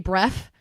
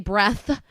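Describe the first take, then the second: First: The word ends with an f sound. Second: The word ends with a th sound. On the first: "I say breath. ... It's always an f" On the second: "I never say breath"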